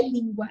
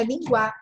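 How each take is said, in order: First: "língua" as LÍN-gua, stressed on the first syllable; correct stress. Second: "linguar" as lin-GUÁ, stressed on the final A; wrong stress. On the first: Teacher correcting the word, first-syllable stress on "língua". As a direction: keep the ending of "língua" weak. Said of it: "é língua". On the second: Teacher rejecting a wrong form, final stress on "linguar". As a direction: throw the weight to the end of "linguar". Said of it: "não é linguar". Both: Shown as a demonstration.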